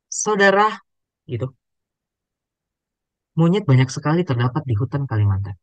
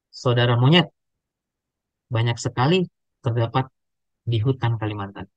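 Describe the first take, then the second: First: There is a pause after the first word. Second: There is no pause after the first word. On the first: The listener is addressed, then told about monkeys. The speaker calls it right. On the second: The listener is called a monkey. The speaker calls it wrong.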